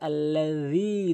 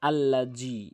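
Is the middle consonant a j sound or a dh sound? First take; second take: dh; j. First: The middle consonant is a dh sound. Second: The middle consonant is a j sound. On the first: The speaker calls it right. "জিব্বার আগাটি নিয়ে সামনে দুইটি দাঁতের আগা, আল্লাযী এভাবে উচ্চারণ করতে হবে" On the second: The speaker calls it wrong. "অধিকাংশ লোক এখানে বলে আল্লাহ জি"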